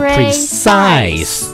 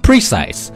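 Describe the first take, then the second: First: The stress is on the second syllable. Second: The stress is on the first syllable. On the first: The speaker calls it right. "重音在后面，叫做precise" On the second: The speaker calls it wrong. "不要说precise"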